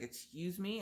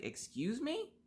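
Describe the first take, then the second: First: Rising, quieter mock-offended mom; a hint of the huffy mother; offended excuse me. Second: Sharply rising, incredulous and breathy-soft; offended high rise on me; indignant excuse me. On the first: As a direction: imitate the mom taking offence. She plays the offended mom. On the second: Retold or imitated. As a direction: throw it back at her in disbelief. Mom accuses her over the dog.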